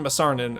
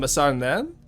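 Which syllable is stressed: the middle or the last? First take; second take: middle; last. First: The stress is on the middle syllable. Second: The stress is on the last syllable. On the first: The speaker calls it wrong. "I was putting it on the Sar instead of the N" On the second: The speaker calls it right. "Just stress the last syllable"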